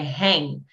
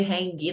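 First: It ends in ng with no hard g. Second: A separate hard g is sounded at the end. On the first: The speaker calls it right. "É hang" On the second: The speaker calls it wrong. "Não pronuncie esse G, hang, não"

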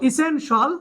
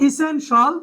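No difference in how they are said.

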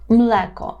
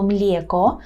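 First: The l is hard before the vowel. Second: The l is soft before the vowel. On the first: The speaker calls it right. "Повинно бути млеко" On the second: The speaker calls it wrong. "щоб у вас не звучало млєко"

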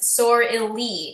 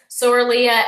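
First: The word ends without an 'a' sound. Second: The word ends with an 'a' sound.

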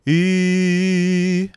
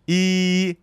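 First: The vowel sounds rounded, with full mouth resonance. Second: The vowel sounds flat and spread, without resonance. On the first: The speaker calls it right. "saya i" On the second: The speaker calls it wrong. "instead of doing i"

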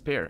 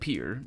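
First: The vowel sounds like the one in 'pair'. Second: The vowel sounds like the one in 'peer'. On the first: The speaker calls it right. "oh, wait a minute, it's pear" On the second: The speaker calls it wrong. "I said peer because it sounds more natural to me being Portuguese native"

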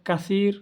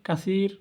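The two takes are said the same way.

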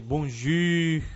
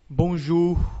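First: The vowel in jour is a front rounded u. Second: The vowel in jour is a plain oo sound. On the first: The speaker calls it wrong. "você quer pronunciar tudo com a letra U" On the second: The speaker calls it right. "vou ter o som U, simplesmente, como em bonjour"

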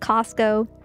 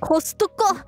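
First: It is said with an American pronunciation. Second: It is said with a Japanese pronunciation. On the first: "Is that the American accent? Yes" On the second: "they pronounce it Costco"

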